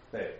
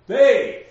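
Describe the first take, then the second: First: They short, low and unstressed; no emphasis on they. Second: They punched very loud and high; exaggerated stress on they. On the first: Teacher showing class how it is read, they unstressed. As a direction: drop they lightly, almost thrown away. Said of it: "When you read that, you don't put an emphasis". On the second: Teacher showing class the emphasis to avoid, they heavily stressed. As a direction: blast the word they in overdone emphasis. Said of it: "don't put an emphasis on". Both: Shown as a demonstration.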